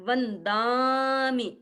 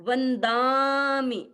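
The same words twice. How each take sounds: Both takes have the same delivery.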